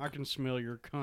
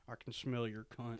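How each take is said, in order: First: Quiet lines spoken from the side of the mouth; out of mouth corner. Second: Out of mouth corner. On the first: Shown as a demonstration. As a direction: push it out the corner of your mouth. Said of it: "talk out of the side of your mouth". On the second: Retold or imitated. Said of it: "That's a good Jodie Foster".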